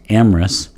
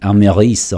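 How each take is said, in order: First: Said the English way, middle vowel swallowed. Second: Said the French way, middle vowel kept. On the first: "this is pronounced Amorous in English" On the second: "I think it would be Améris or Amérès in, uh, in French"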